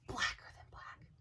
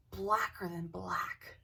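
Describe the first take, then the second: First: Breathy, voiceless spooky whisper. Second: Slow, weighted, each word leaned on; slow emphasis. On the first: Repeating the shadow figure's darkness for effect, whispered. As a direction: whisper it like a ghost story. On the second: Describing the shadow figure to the camera, slow and weighty. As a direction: drag it out to make it ominous. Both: Acted.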